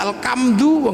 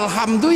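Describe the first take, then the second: First: The middle consonant is a hard 'k' sound. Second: The middle consonant is a breathy 'h' sound.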